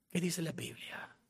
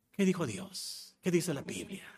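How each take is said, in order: First: Breathy whisper with no voice. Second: Softly asked question, still voiced; quiet question. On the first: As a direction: whisper the question as if it were a secret. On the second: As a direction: ask it softly with a light rise. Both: Real, not acted. Repeated question, voiced then whispered.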